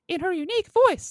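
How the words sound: It is said in a high-pitched voice.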